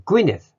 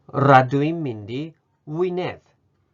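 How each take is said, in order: First: The word begins with a G sound. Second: The word begins with a W sound.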